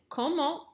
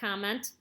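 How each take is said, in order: First: It is said with a French pronunciation. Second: It is said with an American pronunciation. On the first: The speaker calls it right. "we want to sound French" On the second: The speaker calls it wrong. "don't say it that way because we want to sound French, not American"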